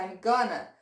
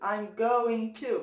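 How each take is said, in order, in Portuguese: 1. Going to é reduzido e ligado em gonna. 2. Cada palavra de going to é pronunciada por completo. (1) "você escuta I'm gonna" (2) "a gente não escuta o going to"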